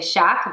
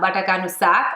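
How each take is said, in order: First: The word begins with an sh sound. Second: The word begins with a plain s sound. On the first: This is how some other people say it. "Some people say shak" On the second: This is how the speaker grew up saying it. "I grew up saying it that way"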